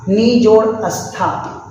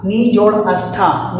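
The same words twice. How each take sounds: First: नी जोड़ अस्था said slowly, each part apart; slow, split word. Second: Said in the usual way. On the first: Shown as a demonstration. Teacher slowly splitting नी जोड़ अस्था for the class. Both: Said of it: "उदाहरण निष्ठा".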